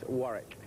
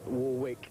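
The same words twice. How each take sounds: First: The second W is silent in the name. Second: The second W is pronounced in the name. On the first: The speaker calls it right. "you don't pronounce the second W" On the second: The speaker calls it wrong. "It's not uh, as Dion, Warwick"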